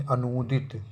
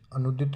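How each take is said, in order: First: अनुदित with long oo in noo; correct pronunciation. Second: अनुदित with short u; wrong pronunciation. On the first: Teacher corrects the vowel, अनुदित as a-noo-dit. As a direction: stretch the middle vowel of अनुदित. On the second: Teacher rejects the misspelling, short-u अनुदित. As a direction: keep nu brief in अनुदित. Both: Shown as a demonstration. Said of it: "अनुदित नहीं".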